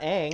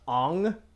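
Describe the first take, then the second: First: The vowel is a flat, open 'a' sound. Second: The vowel is a rounded 'o' sound. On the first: The speaker calls it wrong. "not ang" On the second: The speaker calls it right. "with the round ong"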